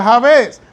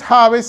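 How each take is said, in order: First: "Jabes" with the accent on the last syllable, ja-BÉS; Hebrew stress. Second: "Jabes" with the accent on the first syllable, JÁ-bes; Spanish stress. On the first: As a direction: put the stress of "Jabes" on the final E. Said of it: "en función del hebreo sería". ("Jabes" a la hebrea, ja-BÉS) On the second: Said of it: "si es en español es". ("Jabes" a la española, JÁ-bes) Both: Shown as a demonstration.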